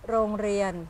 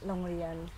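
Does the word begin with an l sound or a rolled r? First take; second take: rolled r; l sound. First: The first sound is a rolled r. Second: The first sound is an l. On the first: This is the standard form. "It's supposed to be rongrian" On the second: This is how people usually say it. "we say le instead, like rongrian"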